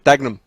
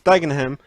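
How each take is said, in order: First: The H sound is dropped. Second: The H sound is clearly pronounced. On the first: "when you live there, you drop H's, so it's Dagenham" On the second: "in all fairness, it's Dagenham"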